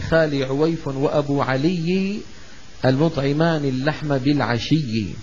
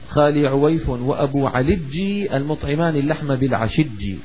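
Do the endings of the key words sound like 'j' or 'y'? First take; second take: y; j. First: The final sounds are pronounced as y. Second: The final y sounds are replaced by j. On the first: "يعني" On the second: "إنما قال وأبو علجي سواها جيم"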